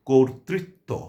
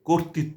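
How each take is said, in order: First: Every r sound is clearly pronounced. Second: Some of the r sounds are left out. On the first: The speaker calls it right. "আমরা বলবো কর্তৃত্ব, তাহলে সঠিক এবং প্রমিত উচ্চারণ হবে।" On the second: The speaker calls it wrong. "কোনো অবস্থাতেই কর্তৃত্ব বলবো না, তাহলে এটি ভুল উচ্চারণ হবে।"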